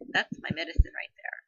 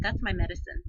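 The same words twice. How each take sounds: First: Higher, louder, breathy insistence on that's; emphatic repeat. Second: Said in the usual way. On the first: Retold or imitated. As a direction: lean hard into the repeat.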